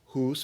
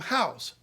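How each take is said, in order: First: The vowel is a long 'oo' sound. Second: The vowel is an 'ow' sound. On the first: This is the older pronunciation before the shift. "where we had been saying oo" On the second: This is the newer pronunciation after the shift. "we started saying ow"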